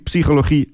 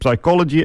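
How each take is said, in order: First: The first word is pronounced the Dutch way. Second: The first word is pronounced the English way. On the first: The term mixes two languages. The speaker calls it wrong. "En niet psychologie, acceptance en commitment" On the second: The whole term stays in one language. The speaker calls it right. "Dus maak er dan alsjeblieft psychology, acceptance en commitment van"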